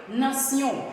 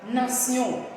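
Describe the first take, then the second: The two takes are said the same way.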